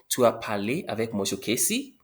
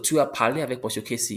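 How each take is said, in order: First: The voice rises at the end. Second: The voice falls at the end. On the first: It asks a question. "raise the voice at the end" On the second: It states a fact. "You spoke with monsieur Casey"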